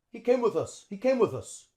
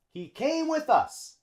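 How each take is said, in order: First: "with us" run together, th linking into us; linked with us. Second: "with" said slowly, not yet linked; careful slow "He came with us.". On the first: Teacher modeling linked natural speech. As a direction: glide "with" straight into us. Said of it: "the T H links on with the U". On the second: Teacher saying the sentence slowly first. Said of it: "notice how the T H links". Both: Shown as a demonstration.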